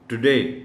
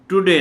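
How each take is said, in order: First: The first syllable is short, stress on 'day'. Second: The first syllable is a separate full 'too'. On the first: The speaker calls it right. "टुडे और डी पर stress है" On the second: The speaker calls it wrong. "टुडे नहीं कहना, मतलब टू की अलग sound"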